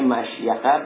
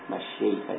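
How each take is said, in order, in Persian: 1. صدای sh مصوت ندارد؛ ya با a همراه است. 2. صدای sh با مصوت i همراه است. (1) "مشیخه به سکونشین و فتح یا" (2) "مشیخه یعنی به کسرشین"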